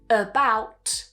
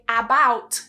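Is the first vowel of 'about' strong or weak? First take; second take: weak; strong. First: The first vowel is a weak schwa. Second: The first vowel is a full, strong 'ah'. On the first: The speaker calls it right. "we would weaken it" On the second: The speaker calls it wrong. "they will pronounce that vowel very strongly"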